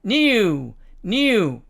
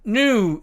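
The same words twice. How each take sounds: First: NEW said as "nyoo", with a y glide; British new. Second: NEW said as "noo", no y glide; American new. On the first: Teacher showing British pronunciation, NEW as "nyoo". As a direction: slip a y after the n in NEW. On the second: Teacher contrasting US with British, NEW as "noo". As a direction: say NEW with a plain oo after the n. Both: Shown as a demonstration. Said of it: "영국식 발음으로 되면".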